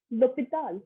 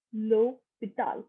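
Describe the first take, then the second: First: Said in the usual way. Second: "l'hôpital" slowly split as loh-pee-TAL; slow French circumflex. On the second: Shown as a demonstration. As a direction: stretch the ô in "l'hôpital", then finish falling. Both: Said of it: "top to bottom again".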